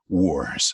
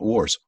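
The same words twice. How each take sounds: First: The word is growled with a rolled sound. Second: The word is said plainly without a growl. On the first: The speaker calls it right. "if I saw a chance to give a, a growl or a roll, I took it" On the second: The speaker calls it wrong. "It's not wars"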